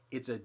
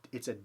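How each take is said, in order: Both takes have the same delivery.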